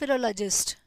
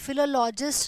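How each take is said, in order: First: The '-log-' vowel is a short reduced sound. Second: The '-log-' vowel is a full 'law' sound. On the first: The speaker calls it right. "इस तरीके से बुलाएंगे आप इसको" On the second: The speaker calls it wrong. "नहीं"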